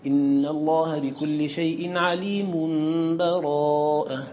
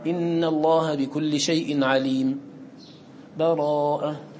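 First: The last word follows directly with no pause. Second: A full stop with a breath precedes the last word. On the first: "لك الوصل" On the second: "تنفس الوقف"

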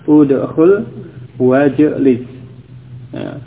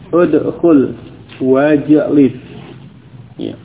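Both takes have the same delivery.

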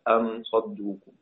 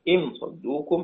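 First: The first word starts with the vowel a. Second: The first word starts with the vowel i. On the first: "والباقون بفتحها" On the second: "بكسر الهمزة"

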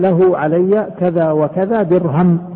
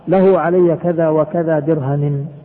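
First: The last word ends bare with no vowel. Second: The last word ends with an -in vowel. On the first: "بالسكون يعني وقف عليها بالوقف" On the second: "بالجر"

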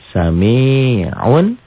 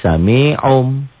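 First: The word ends with an n sound. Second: The word ends with an m sound. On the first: The word is read as written. "Sami'un N-nya jadi M tuh" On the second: The final n changes before a following b. "Sami'un jadi sami'um"

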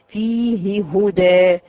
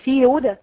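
First: Both h sounds are pronounced separately. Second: The two h sounds are merged together. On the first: The speaker calls it right. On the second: The speaker calls it wrong.

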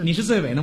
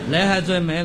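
First: It is said in standard Mandarin pronunciation. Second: It is said with a Cantonese accent, 尾 sounding like mei. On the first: "首尾的尾" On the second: "广东人讲起来"

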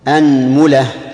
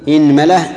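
First: The first vowel is an open 'a'. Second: The first vowel is a front 'i'. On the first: "فتح الهمزة" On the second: "كسر الهمزة"

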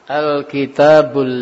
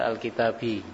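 First: The word ends with a short 'u' vowel. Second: The word ends with a short 'i' vowel. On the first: The speaker calls it right. "baca dhammah" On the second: The speaker calls it wrong. "jangan semata-mata dibaca Al-Kitabi"

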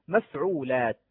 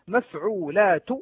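First: The final t ends the word with no vowel. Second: The final t is followed by a short vowel.

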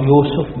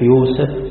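First: The second syllable has the vowel u. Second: The second syllable has the vowel a. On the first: "تقرأ يوسف بالضم كما هي في القرآن" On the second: "وتنطق كذلك بالفتح"

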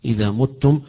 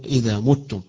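No difference in how they are said.

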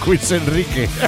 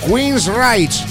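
First: The name ends with the Spanish name 'Enrique'. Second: The name ends with a short 'rike' sound. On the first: The speaker calls it wrong. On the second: The speaker calls it right.

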